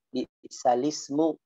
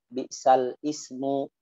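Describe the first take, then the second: First: The words run together with no break. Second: The words are split with a break before ismu. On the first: The speaker calls it right. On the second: The speaker calls it wrong.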